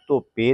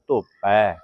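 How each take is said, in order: First: The word ends in an e vowel. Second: The word ends in an ai vowel. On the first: The speaker calls it wrong. "ਧੋਪੇ ਨਹੀਂ ਬੋਲਣਾ" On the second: The speaker calls it right. "ਪੱਪੇ ਦਲਾਈਆਂ ਪੈ"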